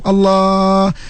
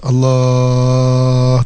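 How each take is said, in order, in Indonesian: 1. Diucapkan pada tingkat nada keenam. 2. Diucapkan pada tingkat nada kedua. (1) "Tahap keenam" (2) "Tahap kedua"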